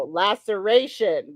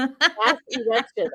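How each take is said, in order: First: Slow, careful "Laceration"; correct word. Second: Slow "Last erection"; wrong word. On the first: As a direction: spell out "Laceration" syllable by syllable. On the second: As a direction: say the misheard "Last erection" deliberately. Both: Shown as a demonstration.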